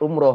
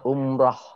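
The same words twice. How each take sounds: First: The second syllable has an 'o' vowel. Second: The second syllable has no 'o' vowel. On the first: The speaker calls it wrong. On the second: The speaker calls it right.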